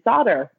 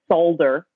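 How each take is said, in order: First: The word is said in an American way. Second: The word is said in an Australian way.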